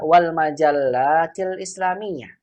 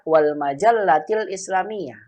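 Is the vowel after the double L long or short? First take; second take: long; short. First: The vowel after the double L is long. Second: The vowel after the double L is short. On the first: There are many magazines. The speaker calls it right. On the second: There is only one magazine. The speaker calls it wrong.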